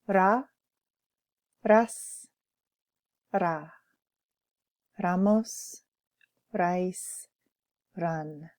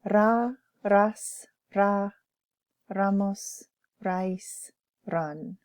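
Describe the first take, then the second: First: The list is said slowly. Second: The list is said at normal speed.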